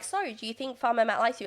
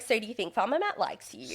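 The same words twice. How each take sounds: First: Said in the usual way. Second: American Valley Girl style, lightly mocked; lightly put-on phony interviewer lilt; imitating fake producer. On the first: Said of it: "isn't just like". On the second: Producer asking contestant about Farmer Matt, lightly mock fake. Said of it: "like, really fake".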